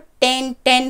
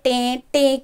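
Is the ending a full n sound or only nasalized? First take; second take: full n; nasalized. First: The words end with a full n sound. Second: The words end with only a nasalized vowel. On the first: The speaker calls it wrong. "अगर इसको नून हम नुक्ता लगाएंगे तो टेन टेन हो जाएगा" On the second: The speaker calls it right. "इसकी आवाज़ हमें धीमी निकालनी है"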